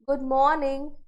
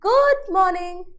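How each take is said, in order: First: It is said lightly, with low energy. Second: It is said energetically, with high intensity. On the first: The speaker is unsure, meeting someone for the first time. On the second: The speaker greets a close friend met again.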